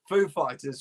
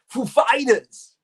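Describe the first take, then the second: First: It is said in a plain everyday voice. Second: It is said in an imitated celebrity voice. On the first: "now I can't hear Foo Fighters" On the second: "without thinking Foo Fighters"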